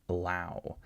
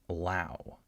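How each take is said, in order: First: The first syllable is rushed and reduced to schwa. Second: The first syllable is rushed and reduced to schwa.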